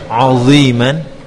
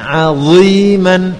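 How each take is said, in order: First: The ain is pronounced thick and heavy. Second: Ain is thin and dha is thick. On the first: The speaker calls it wrong. "Yang pertama ainnya jadi tebal" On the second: The speaker calls it right.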